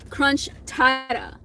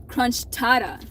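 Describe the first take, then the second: First: Crunch tada said slowly, both words drawn out. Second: Said in the usual way. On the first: Shown as a demonstration. Naming the Del Taco dish for viewers, slow and careful. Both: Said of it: "they call it".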